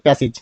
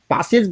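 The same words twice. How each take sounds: First: "প্যাসেজ" said as pae-sij, with a front first vowel; corrected pronunciation. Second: "প্যাসেজ" said as paa-sej, with an open aa; tolerated variant pronunciation. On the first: Teacher giving learners the proper reading, "প্যাসেজ" as pae-sij. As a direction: say "প্যাসেজ" with ae, ending in -ij. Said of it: "তাহলে এটা তখন কি হবে?". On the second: Teacher allowing a learner's version, "প্যাসেজ" as paa-sej. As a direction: open the first vowel of "প্যাসেজ" to aa. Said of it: "প্যাসেজ বললেও আপাতত". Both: Shown as a demonstration.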